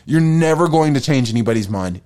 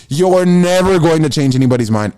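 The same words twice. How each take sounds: First: Said in the usual way. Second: Building to a shout. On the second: Shown as a demonstration. Repeating the line, building.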